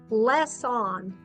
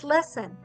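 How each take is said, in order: First: The second syllable has a full short o vowel. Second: The second syllable has a weak, reduced vowel. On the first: The speaker calls it wrong. "with the short vowel because it has a consonant guard" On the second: The speaker calls it right. "oh, I think it's lesson"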